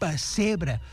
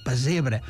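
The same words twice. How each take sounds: First: The middle s sound is voiceless, like s. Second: The middle s sound is voiced, like z. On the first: This form comes from Spanish influence. The speaker calls it wrong. "amb és sorda és per castellanisme" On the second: This is the genuine Catalan form. The speaker calls it right. "el mot català és amb sonora"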